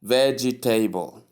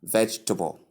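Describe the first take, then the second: First: "vegetable" in four syllables, VEJ-ee-TAY-bul; wrong pronunciation. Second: Vegetable in three syllables, VEJ-tuh-bul; correct pronunciation. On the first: Teacher shows learners the mistake in vegetable, wrong four-syllable pronunciation. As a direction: say "vegetable" with an added EE and a TABLE ending. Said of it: "most people pronounce it as". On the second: Teacher models the word vegetable for learners, correct three-syllable pronunciation. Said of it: "that's the right pronunciation". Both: Shown as a demonstration.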